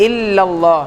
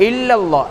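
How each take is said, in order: No difference in how they are said.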